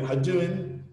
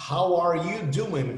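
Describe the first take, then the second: First: "How doing" squashed into "ha-duin"; quick, reduced "How doing"; contracted form. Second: Slow, every word of "How are you doing" separate; deliberate, unreduced "How are you doing"; full form. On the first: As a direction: run it together as "hadduin". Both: Shown as a demonstration.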